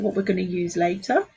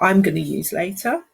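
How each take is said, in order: First: Said in the usual way. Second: "I'm" stressed to correct herself. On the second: Real, not acted. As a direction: lean on "I'm", then let the rest drop. Self-correction from we to I.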